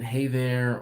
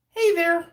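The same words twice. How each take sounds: First: Said in the usual way. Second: High, loud call on a level note; Rodney's catchphrase. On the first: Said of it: "I know I comment". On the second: Retold or imitated. Imitating how an old coworker said it, high loud call. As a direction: belt the greeting up high. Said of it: "That was how he said it".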